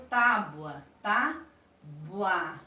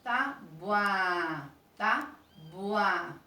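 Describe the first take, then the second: First: Tábua drawn out and stressed, the BU weak and the A fuller; demo word tábua. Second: Tábua drawn out, BU weak and A full; repeated demo word. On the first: Teacher showing the class how to say tábua. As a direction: say tábua slowly, leaning on the final A. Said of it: "a gente tem que falar a palavra". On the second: Teacher repeating tábua for the class. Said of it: "Vocês têm que perceber aí este som". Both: Shown as a demonstration.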